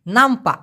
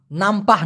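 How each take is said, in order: First: নামপা with a short clipped end and no h, a bit louder; the right way, নামপা cut short; correct pronunciation. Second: নামপাহ with a breathy h at the end; the wrong way, নামপাহ ending in h; wrong pronunciation. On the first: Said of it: "আমি আবার উচ্চারণ করতেছি". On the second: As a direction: say নামপাহ with the final h sounded. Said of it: "নামপাহ না". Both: Shown as a demonstration.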